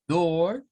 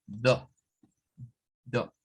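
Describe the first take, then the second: First: Door with the R sounded, a bit higher; American door; rhotic door. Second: Door as do, no R, lower; non-rhotic door; British door. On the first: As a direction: say door with a full R. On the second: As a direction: drop the R: do. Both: Shown as a demonstration. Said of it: "otro cambio que se nota mucho".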